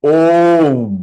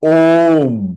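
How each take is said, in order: First: The word ends cleanly on a half m sound. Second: The word ends cleanly on a half m sound.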